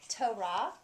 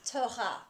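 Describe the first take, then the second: First: The R is made with the tongue. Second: The R is made in the throat.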